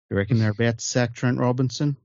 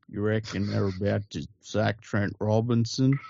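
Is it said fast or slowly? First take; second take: fast; slowly. First: It is said at a quicker, normal pace. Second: It is said much more slowly.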